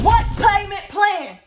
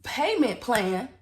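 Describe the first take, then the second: First: High, drawn-out yell; loud exasperated scream; outraged shout. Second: Slow, drawn-out questioning; stunned, slowed-down repeat; incredulous echo. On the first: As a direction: holler it slowly in total disbelief. Acted outburst at payment plan. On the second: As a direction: stretch the words out in disbelief. Acted disbelief, echoing the clerk. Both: Retold or imitated.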